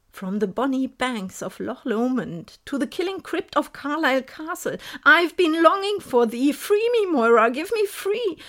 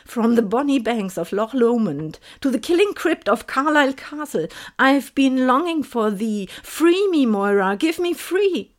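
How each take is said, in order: First: A higher, louder haunting call from inside her head; the ghost pleads, rising to a cry; the voice in her head, louder than ever; ghostly voice, louder. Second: Ghostly voice. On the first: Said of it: "die Stimme in meinem Kopf lauter denn je". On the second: Ghostly voice in her head. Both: Acted.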